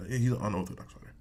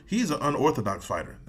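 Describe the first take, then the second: First: He's an unorthodox fighter, muttered fast and softer; muttered repeat. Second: Said in the usual way. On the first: Real, not acted. Repeating his point about Saint Preux, fast and softer. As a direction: toss the repeat off quickly under the breath. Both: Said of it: "That Saint Preux".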